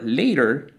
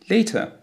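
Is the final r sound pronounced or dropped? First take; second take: pronounced; dropped. First: The final r sound is pronounced. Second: The final r sound is dropped.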